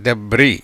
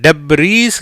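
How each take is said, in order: First: டெப்ரி with the final S silent, low; correct pronunciation. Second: டெப்ரீஸ் with final S sounded, slow; wrong pronunciation. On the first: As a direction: say டெப்ரி as "deb-ree". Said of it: "டெப்ரீஸ் கிடையாது". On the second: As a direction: say டெப்ரீஸ் as "deb-reess". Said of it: "கிடையாது". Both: Shown as a demonstration.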